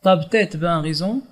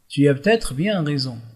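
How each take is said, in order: First: Syllables are swallowed, 'tu as' becomes 't'as'. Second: Every syllable is said in full, 'tu as' included. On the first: It is casual, familiar speech. "Nous remarquons qu'il y a des syllabes avalées" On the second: It is standard, everyday speech. "dit dans un registre courant"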